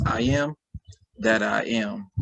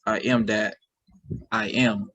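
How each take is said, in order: First: "I am", short pause, then "that I am"; group "that" with the second "I am"; pause after first I AM. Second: "I am that", pause, then "I am"; group "that" with the first "I am"; pause after THAT. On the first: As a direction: split it as "I am / that I am". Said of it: "say in two different ways". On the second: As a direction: split it as "I am that / I am". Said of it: "or you can say". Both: Shown as a demonstration.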